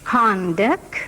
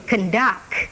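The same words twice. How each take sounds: First: Conduct with the first syllable stressed; noun stress on first syllable. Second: Conduct with a reduced first syllable and stressed DUCT; verb stress on second syllable. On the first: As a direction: hit the CON of "Conduct". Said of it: "The nouns first". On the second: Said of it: "the verb". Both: Shown as a demonstration.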